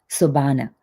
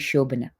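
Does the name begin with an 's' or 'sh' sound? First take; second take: s; sh. First: The name begins with an 's' sound. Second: The name begins with a 'sh' sound. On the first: This is a reading from the spelling by people abroad. The speaker calls it wrong. "phonetically they pronounce it Sobana, which is not correct" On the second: This is how people in her home country say it. The speaker calls it right. "in India, everybody calls me"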